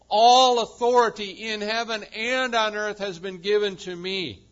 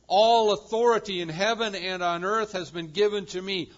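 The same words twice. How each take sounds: First: "All" thundered, the rest driven hard; louder proclamation, leaning on "All"; stress on ALL again, louder. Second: "All" punched at the start, loud and falling; stress on ALL. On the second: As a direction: preach it, opening hard on "All". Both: Shown as a demonstration. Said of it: "note those words".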